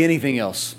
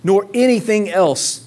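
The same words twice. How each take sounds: First: Said in the usual way. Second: Emphatic preaching. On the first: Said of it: "Everyone say". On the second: Acted. Preacher building the list.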